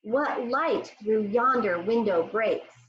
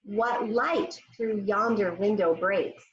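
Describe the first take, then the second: First: Slow line spoken together; slow choral recitation. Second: Slow, careful line for pupils; slow model recitation. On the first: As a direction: lead it slowly. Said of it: "Say it with me". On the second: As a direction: model it slowly. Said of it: "I want you to say it with me". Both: Shown as a demonstration.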